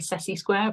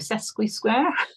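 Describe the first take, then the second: First: The first part is said without a k sound. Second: The first part is said with a k sound. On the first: The speaker calls it wrong. "I want to say Sessi square" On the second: The speaker calls it right. "but there is a Q in it"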